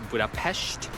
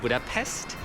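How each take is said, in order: First: The final consonant sounds like sh. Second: The final consonant sounds like s. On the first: The speaker calls it right. "I think you pronounce it like as Budapest" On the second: The speaker calls it wrong. "instead of Budapest"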